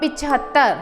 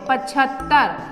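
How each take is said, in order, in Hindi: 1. पहला स्वर छोटी 'इ' ध्वनि है। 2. पहला स्वर छोटी 'अ' ध्वनि है। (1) "ये होता है पिछहत्तर" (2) "पचहत्तर बोलते हैं ... जो कि गलत है"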